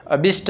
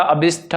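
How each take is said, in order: First: अभिष्ट ending in unaspirated "sht"; wrong form shown. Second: अभिष्ट ending in aspirated "shth"; correct form shown. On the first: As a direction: end अभिष्ट on a plain t, no puff. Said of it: "अभिष्ट नहीं होता". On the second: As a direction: end अभिष्ट with a breathy puff on the t. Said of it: "अभिष्ट होता है". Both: Shown as a demonstration.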